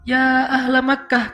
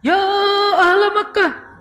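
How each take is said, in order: First: It is called out with measured, moderate force. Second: It is shouted with an exaggerated, changed tone. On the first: The caller keeps his dignity. The speaker calls it right. "porsi yang pas, proportional" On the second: The preacher dramatizes the call. The speaker calls it wrong. "Khatib ketika bawa ... hadis ini berubah nadanya"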